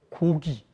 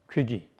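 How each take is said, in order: First: The first vowel is a rounded back o. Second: The first vowel is a fronted oe sound.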